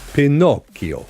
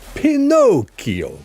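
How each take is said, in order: First: The name is said with Italian pronunciation. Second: The name is said with American pronunciation. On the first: The speaker calls it right. "pronounce Pinocchio in Italian, this is how it sounds" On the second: The speaker calls it wrong. "Not Pinocchio"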